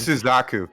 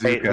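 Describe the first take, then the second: First: The name ends with the sounds 'zaku'. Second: The name ends with the sounds 'zuka'. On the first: The speaker calls it wrong. "I always say" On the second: The speaker calls it right. "but it's"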